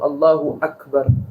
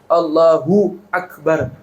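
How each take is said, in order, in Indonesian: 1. Kedua kata itu disambung tanpa jeda. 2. Ada jeda di antara kedua kata. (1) "Bisa aja disambung" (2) "Harus diberhentiin berarti"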